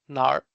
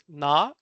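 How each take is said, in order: First: The word ends with an r sound. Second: The word ends without an r sound. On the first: "pronounced as nar, depending on which uh, kind of like Chinese uh, dialectual pronunciation" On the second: "It is also pronounced pronounced as na"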